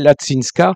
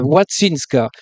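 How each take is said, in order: First: The name begins with an L sound. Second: The name begins with a W sound. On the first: The speaker calls it wrong. "on peut lire en français Latsinska, mais c'est un L barré" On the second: The speaker calls it right. "le L barré se prononce WU"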